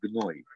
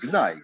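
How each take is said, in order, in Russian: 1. Слово заканчивается на звук 'oy'. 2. Слово заканчивается на звук 'ai'. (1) "Ашкеназский гной" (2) "Нет, гнай"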